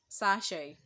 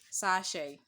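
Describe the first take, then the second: First: The final t sound is silent. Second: The final t sound is silent.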